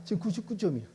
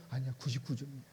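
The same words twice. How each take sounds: First: Said in the usual way. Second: Softer, calm correction; quiet God voice. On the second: Acted. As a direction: gently set him straight.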